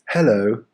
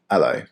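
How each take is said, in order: First: The word starts with a clear H sound. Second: The word starts without any H sound. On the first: The speaker calls it wrong. "nobody says hello" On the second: The speaker calls it right. "You instantly remove that H, so you end up with hello"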